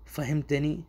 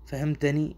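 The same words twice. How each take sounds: The two takes are said the same way.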